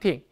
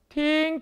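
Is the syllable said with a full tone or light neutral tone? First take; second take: neutral tone; full tone. First: The syllable is light and toneless. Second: The syllable carries its full level tone.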